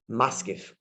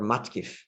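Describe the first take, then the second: First: The middle consonant is an S sound. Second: The middle consonant is a T sound.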